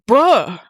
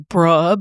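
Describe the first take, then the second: First: It is said in a surprised tone. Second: It is said in a disagreeing tone. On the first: The speaker did not expect this. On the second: The speaker disagrees. "Disagreement, also bruh, but with a different inflection"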